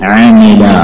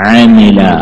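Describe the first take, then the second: The two takes are said the same way.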